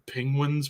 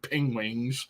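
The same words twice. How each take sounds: First: The word is pronounced in the standard way. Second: The word is pronounced in a garbled way. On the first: The speaker calls it right. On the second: The speaker calls it wrong.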